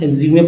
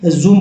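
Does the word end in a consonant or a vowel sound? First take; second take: vowel; consonant. First: The word ends with an extra vowel sound. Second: The word ends on the final m consonant. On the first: The speaker calls it wrong. "कुछ लोग एज्यूमे पढ़ते हैं" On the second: The speaker calls it right. "लेकिन एज्यूम पढ़ना"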